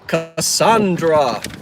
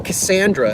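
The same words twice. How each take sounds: First: The name is said in a standard accent. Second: The name is said in a South Jersey accent.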